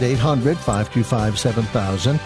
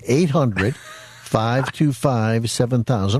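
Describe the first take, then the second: First: The number is said quickly. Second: The number is said slowly.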